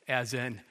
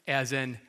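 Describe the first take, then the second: No difference in how they are said.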